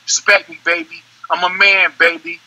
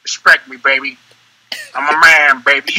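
First: Lightly imitated rapper's line; measured, understated rapper impression. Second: Lower-pitched, with pauses between phrases; said another way. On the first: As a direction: give it a hint of the rapper's delivery. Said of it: "L L, L L". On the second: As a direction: drop the voice and space it out. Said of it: "Or I can say it like". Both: Shown as a demonstration.

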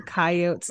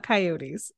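First: "coyotes" ending in plain "-otes", no final ee; regional pronunciation. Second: "coyotes" with a final ee; standard pronunciation. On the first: Retold or imitated. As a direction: say "coyotes" as two syllables, KAI-ohts. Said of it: "you called them coyotes, not coyotes". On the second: Shown as a demonstration. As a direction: say "coyotes" as three syllables, kai-OH-teez. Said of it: "not coyotes".

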